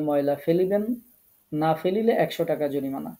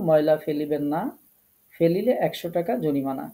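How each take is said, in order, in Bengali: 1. থামাটা 'na' শব্দের ঠিক আগে। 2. থামাটা 'na' শব্দের ঠিক পরে। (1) "আমরা যদি কমাটাকে আগেই থেমে যাই" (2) "আমরা থামার কথা ছিল ময়লা ফেলিবেন না"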